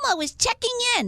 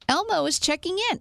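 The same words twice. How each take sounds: First: It is said in an Elmo impression. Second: It is said in her normal voice.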